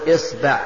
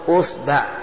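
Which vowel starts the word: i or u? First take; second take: i; u. First: The word begins with the vowel i. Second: The word begins with the vowel u. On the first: "بقى علينا كسر الهمزة" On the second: "ضم الهمزة"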